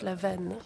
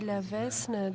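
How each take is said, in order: First: The name is said without an S sound. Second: The name is said with an S sound. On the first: The speaker calls it right. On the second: The speaker calls it wrong.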